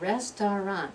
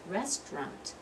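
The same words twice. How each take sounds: First: The word is said with the middle syllable. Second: The word is said without the middle syllable. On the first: The speaker calls it wrong. "I don't say restaurant" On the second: The speaker calls it right. "I'm skipping that whole middle syllable"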